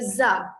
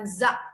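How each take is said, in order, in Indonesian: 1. Kata ini berakhir terbuka, tanpa hamzah. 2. Kata ini berakhir dengan hamzah. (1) "nama kedua dia Za" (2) "seolah-olah dia ada hamzah"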